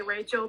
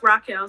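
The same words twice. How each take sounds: First: "Rachel" said RAY-chul, the common misreading; mispronounced as Rachel. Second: "Raquel" said rah-KEL, hard k; correct name pronunciation. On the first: Host showing how people misread the name, "Rachel" as RAY-chul. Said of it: "spell or say Rachel". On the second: Host correcting her name for listeners, "Raquel" as rah-KEL. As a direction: say "Raquel" as rah-KEL, not RAY-chul. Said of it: "it's pronounced Raquel". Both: Shown as a demonstration.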